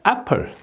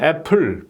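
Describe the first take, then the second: First: The stress falls on the first syllable. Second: The stress falls on the second syllable. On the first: The speaker calls it right. "이 앞에 여기에 액센트가 있는 거예요" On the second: The speaker calls it wrong. "푸 소리가 이 자음 때문에 이게 세기 때문에 여기에 액센트가 들어가는 거예요 저절로"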